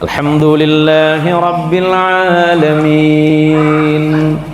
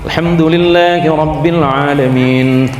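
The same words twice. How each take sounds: First: It is recited slowly and drawn out. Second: It is recited at a moderate pace.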